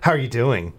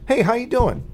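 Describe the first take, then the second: First: It sounds annoyed and suspicious. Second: It sounds warm and friendly.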